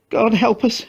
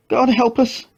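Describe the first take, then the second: First: Much higher, anguished plea; desperate prayer. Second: Much higher, anguished repeat; despairing prayer. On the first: Mother prays in anguish, much higher plea. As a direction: pray in despair. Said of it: "she said". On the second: Mother repeats prayer in despair, much higher anguish. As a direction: plead to God again. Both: A narrator's reading.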